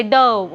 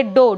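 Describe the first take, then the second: First: "dough" with a wrong "uh" vowel, like "duh"; mispronounced "dough". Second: "dough" with a round o, like "doh"; pronounced "dough". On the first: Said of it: "You don't have to say". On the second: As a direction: say "dough" to rhyme with go. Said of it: "you have to say dough". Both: Shown as a demonstration.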